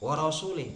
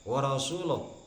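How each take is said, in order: First: The last word ends with an 'i' vowel. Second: The last word ends with an 'u' vowel. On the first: God disowns the idolaters and also his messenger. The speaker calls it wrong. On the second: The messenger also disowns the idolaters. The speaker calls it right.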